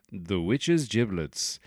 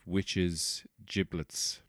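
First: Drawn-out gig announcer billing; punk band announcement. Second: Said in the usual way. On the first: Pretend. Host bills an imaginary punk band, mock announcer. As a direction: announce the band name slowly, with relish. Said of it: "good name for a punk band".

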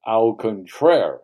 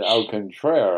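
First: "Au contraire" said slowly and louder, with a put-on French sound; French phrase. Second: "Au contraire" repeated with a mild French lilt, a bit louder; French phrase. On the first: Answering the angry father with a smug, slow French "Au contraire". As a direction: draw out "Au contraire" to show off sophistication. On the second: Retold or imitated. Repeating the retort to the father, lightly French "Au contraire". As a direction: toss off "Au contraire" with a hint of smug French flair. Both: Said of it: "I used a little French there".

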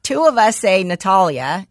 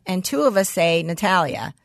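First: Natalia said nuh-TAH-lee-uh, broad A; one way of saying Natalia. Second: Natalia said nuh-TAL-yuh, flat A; the other Natalia. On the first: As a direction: Natalia with a long open "tah". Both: Shown as a demonstration.

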